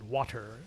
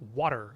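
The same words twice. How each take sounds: First: The middle consonant is a clear T sound. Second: The middle consonant sounds like a soft D. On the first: "in British English... they actually pronounce the T sound" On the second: "in American you say water, water. It's like a D sound"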